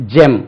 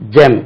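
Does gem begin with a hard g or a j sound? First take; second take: j; j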